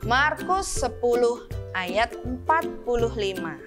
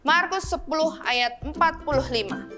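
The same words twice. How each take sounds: First: It is spoken slowly. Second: It is spoken quickly. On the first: "secara perlahan-lahan" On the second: "sekali lagi dengan lebih cepat"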